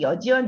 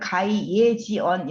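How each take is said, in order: First: The word begins with the syllable 'yeo'. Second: The word begins with the syllable 'ye'. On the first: "여지언 이렇게 읽으셔도 돼요" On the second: "예라고 우리가 보통 그 발음을 하거든요"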